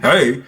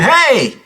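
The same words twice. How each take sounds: First: It is said in a deep, chesty voice. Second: It is said in a light, thin voice.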